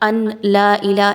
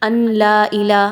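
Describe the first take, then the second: First: The n sound is pronounced clearly before l. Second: The n sound is pronounced clearly before l.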